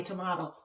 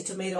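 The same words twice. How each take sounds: First: "tomato" said tuh-MAH-doh. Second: "tomato" said tuh-MAY-toh. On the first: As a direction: give "tomato" an open "ah" in the middle. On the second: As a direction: give "tomato" a long "ay" in the middle. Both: Shown as a demonstration. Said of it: "however you want to pronounce it".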